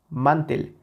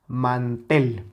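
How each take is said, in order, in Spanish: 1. El acento está en la primera sílaba. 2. El acento está en la última sílaba. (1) "Si le quitamos esa intensidad, se escucharía mantel" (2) "Evidentemente la sílaba tónica es la última"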